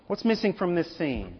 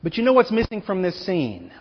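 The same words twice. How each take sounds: First: "What's missing from this scene?" repeated much softer, drawing them in; a softer, pointed echo of the question; hushed repeat. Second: Said in the usual way. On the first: Shown as a demonstration. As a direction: drop to a near-hush on "missing".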